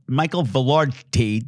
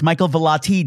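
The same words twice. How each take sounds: First: "Michael Velarde" with the mixed-up surname Velarde; wrong name. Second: "Michael Velati" with the surname said ve-LAH-tee; corrected name. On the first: Host admits the name mix-up, saying the wrong surname. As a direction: say "Michael Velarde", blending two friends' surnames. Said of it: "a name that I'm mispronouncing". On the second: Host fixes a guest's surname, saying it correctly. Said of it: "Michael Velati does". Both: Shown as a demonstration.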